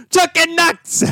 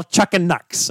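First: Very high, drawn-out catchphrase yell; mock yell. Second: Said in the usual way. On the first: Shown as a demonstration. Host demonstrating the wrestling catchphrase, high drawn-out mock yell. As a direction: yell it like a wrestling battle cry. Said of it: "you're gonna yell, "Chucking Nucks". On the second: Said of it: "you're gonna yell".

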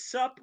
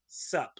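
First: "Sup" pitched high as a question; question intonation. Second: Said in the usual way. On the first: Retold or imitated. Minister faxing back to Borat, "Sup" as a question. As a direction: ask "Sup" with a lifted, questioning tune. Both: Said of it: "with a question mark".

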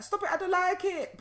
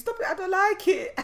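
First: Put-on high, loud child's protest; Sana. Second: Put-on very high, loud little-girl squeal; Sana. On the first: Mother imitating daughter protesting, high child voice. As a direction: mimic a little girl's squeaky complaint, amused. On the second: Mother imitating daughter refusing to sit, squealed protest. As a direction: mimic a small child's indignant outburst. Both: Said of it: "she's like".

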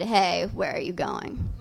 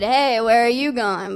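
First: Said in the usual way. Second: Leering "Hey, where are you going?" with a sleazy lilt; mock creepy catcall. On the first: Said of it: "actually, he just said". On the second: Stranger calling out to her in the street, leering. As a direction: play it like a street harasser. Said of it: "I thought he said".

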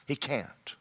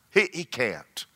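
First: Quiet emphatic echo; soft repeat. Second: Said in the usual way. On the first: Real, not acted. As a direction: echo it much softer.

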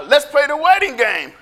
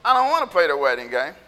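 First: Put-on eager kid's invitation. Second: Low, quick dismissive grumble; lower-pitched, rushed refusal; sulky kid refusal. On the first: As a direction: invite friends into a game. Kids proposing a playground game. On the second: Acted. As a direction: turn the game down flat. Kids refusing the game.

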